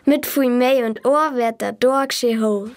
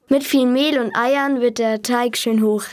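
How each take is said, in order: First: It is said in Bavarian dialect. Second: It is said in standard German.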